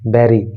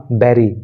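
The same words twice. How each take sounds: First: The word starts with a b sound. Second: The word starts with a b sound.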